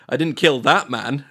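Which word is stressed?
that. The stress is on "that".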